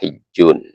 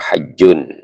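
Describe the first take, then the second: First: The first vowel is an 'i' sound. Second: The first vowel is an 'a' sound. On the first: "Yang kasrah awalnya hijjun" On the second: "Yang fathah awalnya dibaca haji atau hajjun"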